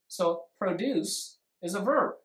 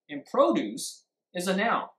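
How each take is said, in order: First: The stress is on the second syllable. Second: The stress is on the first syllable.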